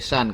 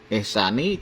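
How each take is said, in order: First: The word ends on a consonant. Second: The word ends with a short vowel. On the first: The reciter stops at the end of the phrase. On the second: The word runs on without a pausal stop.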